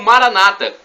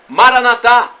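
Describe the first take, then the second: First: The stress is on the second-to-last syllable. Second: The stress is on the last syllable. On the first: "com a tônica na penúltima sílaba, como dizem os nossos irmãos separados" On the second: "com a tônica na última sílaba"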